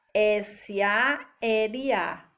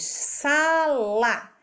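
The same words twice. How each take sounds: First: S A L A named letter by letter, very slow; spelled out slowly. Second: Sala said as sa-la, split into two beats; syllable-split demo. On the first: Teacher spelling S A L A slowly for the children. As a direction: spell out S A L A one letter at a time. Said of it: "dividida em quatro letras". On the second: Teacher showing the children sala split into syllables. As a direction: sound out sala slowly by syllables. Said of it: "dividida em duas sílabas". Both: Shown as a demonstration.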